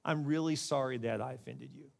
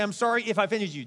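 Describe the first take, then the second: First: Soft, low, earnest apology; sincere apology. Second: Mock apology, raised in pitch; insincere apology. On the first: Preacher showing how to skip the if, sincerely sorry. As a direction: say it gently and mean it. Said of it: "and just say". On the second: Preacher demonstrating a sorry that's not an apology, insincere. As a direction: toss off a hollow sorry. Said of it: "it's really not an apology at all". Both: Shown as a demonstration.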